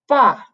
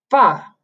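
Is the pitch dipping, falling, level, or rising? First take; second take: falling; falling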